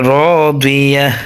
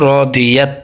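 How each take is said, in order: First: The word ends with a soft h sound. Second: The word ends with a t sound. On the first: The reader stops at the end of the verse. "থামলে এই গোলতাটা সবসময় হায়ের উচ্চারণ হয়" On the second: The reader continues without stopping. "তায়ের উচ্চারণ হতো"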